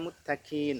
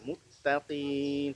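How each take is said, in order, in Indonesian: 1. Bunyi q itu ringan, seperti k. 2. Bunyi q itu dalam dan berat. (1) "tak boleh dibaca muttaqin. Nah, kalau begitu berubah menjadi hukaf" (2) "agak menekan ya"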